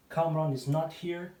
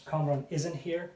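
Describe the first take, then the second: First: Said in the usual way. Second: Isn't said as one short contracted word. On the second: Shown as a demonstration. A teacher contrasts the full and contracted forms for learners. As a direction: glide "is not" into "isn't".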